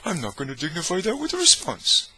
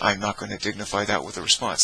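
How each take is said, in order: First: It is said in a Homer Simpson voice. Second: It is said in his normal voice.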